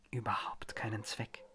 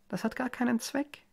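First: Unvoiced whisper, much softer. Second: Sing-song taunt, pitched well up; sweet taunt. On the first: Mary whispering to the eye in the bowl, hushed. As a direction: hiss "keinen Zweck" low and breathless. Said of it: "flüsterte sie". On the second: Mary teasing her helpless husband, sing-song. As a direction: tease him brightly, above your usual pitch. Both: A narrator's reading.

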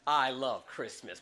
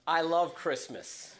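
First: Slow, lower signature line; slow, quoted catchphrase. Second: Slow, drawn-out I love Christmas; slow, savoured. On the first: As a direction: give the catchphrase its usual slow weight. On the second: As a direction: let love linger, unhurried. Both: Shown as a demonstration. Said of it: "I always say the same thing".

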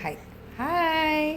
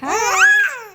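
First: Soft, long drawn-out hi; demonstrated greeting. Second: High, loud squealed hi; demonstrated greeting. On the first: Mother shows baby how to say hi, soft and drawn out. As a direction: stretch hi slowly and quietly. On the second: Mother shows baby how to say hi, high squeal. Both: Shown as a demonstration. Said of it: "ಹಿಂಗೆ, ಹಿಂಗೆ ಹೇಳ್ಬೇಕಾ?".

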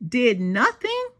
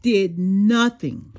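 First: "Did nothing?" asked back in mild disbelief; echoed question. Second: Slow, weighty "did nothing", falling at the end; dramatic pause. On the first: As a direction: repeat "Did nothing?" as if you can't believe it. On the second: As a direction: draw out "nothing" slowly, heavily. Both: A narrator's reading.

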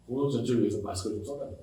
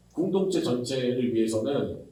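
First: Much softer, fast plea, 공동체 with a rise; soft pleading request. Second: Said in the usual way. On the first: Retold or imitated. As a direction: quietly beg 공동체 전체를 위해서. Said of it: "같은 말 다시". (작고 빠르게 부탁하는 말투) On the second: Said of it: "같은 말 두 번".

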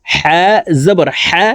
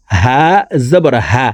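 First: হা breathed from the middle of the throat. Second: হা from where the throat begins, pitched lower; deep-throat H. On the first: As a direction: tighten হা in mid-throat. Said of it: "হা হরফ হলকের মধ্যখান থেকে". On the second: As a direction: let হা start at the bottom of the throat. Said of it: "হলকের শুরু থেকে পড়তে হবে". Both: Shown as a demonstration.

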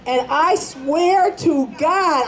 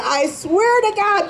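First: Said in the usual way. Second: The repeat of swear pitched higher; higher insisting vow on "swear"; emphatic repeat. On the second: Acted. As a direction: lift "swear" up high to insist. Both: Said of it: "believe me".

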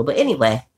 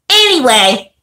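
First: Said in the usual way. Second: Higher, louder brush-off anyway; Anyway punched higher to change the subject; emphatic reset. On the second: Shown as a demonstration. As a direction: shake it off and say Anyway loud and bright.

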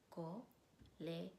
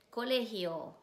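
First: "Colegio" softly in pieces, co, le, gio; split into syllables. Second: Said in the usual way. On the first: Shown as a demonstration. Teacher breaks the word down for students, "Colegio" syllable by syllable. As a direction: pause after each syllable of "Colegio". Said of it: "decir las sílabas". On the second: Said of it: "repetir la palabra y decir las sílabas".

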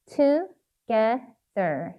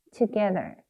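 First: "Together" very slowly, in three separate syllables; sounding out while writing. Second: Said in the usual way. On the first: Shown as a demonstration. Teacher writing "Together" for learners, sounding it out slowly. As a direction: break "Together" into to, ge, ther. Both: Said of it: "발음하시면서 꼭 쓰셔야 돼요".

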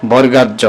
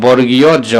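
First: "বর্গাজ" run together as borga-jo; common wrong name. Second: "বর্গীয় জ" fully sounded, bor-gi-yo jo; correct letter name. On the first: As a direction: merge the name into "বর্গাজ", dropping the iyo. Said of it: "আমরা অনেক সময় এটাকে বলি". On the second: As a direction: separate "বর্গীয় জ" into two careful words. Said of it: "আসলে এটার নাম হচ্ছে". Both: Shown as a demonstration.

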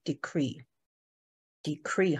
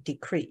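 First: Decree said slowly, weight on the final syllable "cree"; stress on the second syllable. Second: Said in the usual way. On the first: Shown as a demonstration. Teacher shows the class where decree is stressed, slowly. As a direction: drag out decree, landing on "cree". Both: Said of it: "重音在后面".

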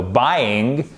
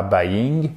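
First: "buying" as "BY-ing", full diphthong first; corrected pronunciation. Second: "buying" wrongly as "ba-ying", split before the Y; mispronunciation shown. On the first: Teacher correcting the wrong version for learners, "buying" as "BY-ing". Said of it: "no, buying". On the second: Teacher showing learners what to avoid, "buying" as "ba-ying". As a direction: break "buying" into a short "ba" plus "ying". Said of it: "et pas buying". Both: Shown as a demonstration.

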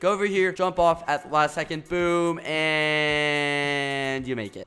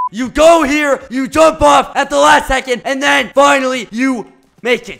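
First: Said in the usual way. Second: Much louder, higher, eager explanation; excited. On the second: Shown as a demonstration. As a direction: push it with energy this time. Demonstrating the jump again.

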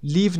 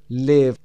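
First: "live" mispronounced with a long ee, like leave; wrong long vowel. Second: "Live" with a short, lax i, rhyming with give. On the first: Teacher showing learners what to avoid, "live" with long ee. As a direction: say "live" as "leev". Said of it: "نمیخونیم این رو". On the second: Teacher correcting learners' reading, "Live" with short i. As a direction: keep the vowel in "Live" short. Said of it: "یه کوتاه هست". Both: Shown as a demonstration.

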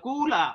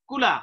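First: কুলা-র উ টেনে লম্বা করা; কুলা শব্দে প্রথম স্বর ধরে রাখা; ভুল দীর্ঘ উ. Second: Said in the usual way. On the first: Shown as a demonstration. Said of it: "কুল বলতে যতক্ষণ আমরা টেনেছি". (কুলা-য় উ দীর্ঘ করে দেখানো) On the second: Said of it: "তখন রস্ব উচ্চারণ".

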